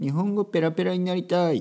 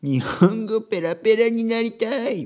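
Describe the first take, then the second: First: It is said in a plain adult voice. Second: It is said in a spoiled child's voice.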